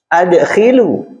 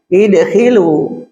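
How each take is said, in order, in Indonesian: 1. Kata ini dimulai dengan vokal a. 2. Kata ini dimulai dengan vokal i. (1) "seperti yang kita baca kemarin"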